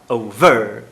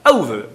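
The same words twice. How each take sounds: First: The stress is on the second syllable. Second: The stress is on the first syllable. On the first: "Só que ela fala over" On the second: "a tônica é a primeira"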